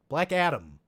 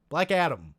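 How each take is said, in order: No difference in how they are said.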